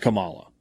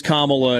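First: Kamala said kuh-MAH-luh, stress in the middle; second-syllable stress on Kamala. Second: Kamala said KAH-muh-luh, like "comma-la"; first-syllable stress on Kamala. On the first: Showing a co-host the rejected form, Kamala stressed mid-word. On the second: Answering a co-host on the name, Kamala stressed up front. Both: Shown as a demonstration. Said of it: "Is that how you pronounce her name?".

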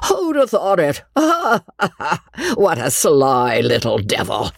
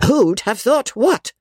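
First: High chuckle settling into an amused mutter; gleeful old squire, laughing; muttering, chuckling with pleasure. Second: Slow, high-pitched demand; exasperated old lady's high cry; indignant cry. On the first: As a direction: chuckle to yourself like a delighted old rogue. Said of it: "he muttered, chuckling with pleasure". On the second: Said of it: "cried Miss Crawley, stamping her foot". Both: A narrator's reading.

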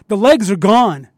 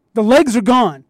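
First: Said in the usual way. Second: "legs" pitched higher in the repeat; emphatic repeat. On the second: Retold or imitated. Repeating to his friends with emphasis on "legs". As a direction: hit "legs" harder the second time.

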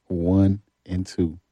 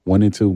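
First: "One and two" drawn out slowly; slow and measured. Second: Said in the usual way. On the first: Real, not acted. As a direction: spell out "One and two" at half speed. Repeats record slowly to reassure.

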